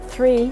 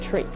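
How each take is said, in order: First: The word begins with a soft th sound. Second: The word begins with a hard t sound. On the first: The speaker calls it wrong. "You're not supposed to say three" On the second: The speaker calls it right. "you're supposed to say tree"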